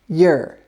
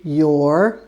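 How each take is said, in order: First: The word is said quickly and reduced. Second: The word is said slowly and fully. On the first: "If you're speaking quickly, and a lot of native speakers do say this word" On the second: "If you're speaking slowly, you can say your"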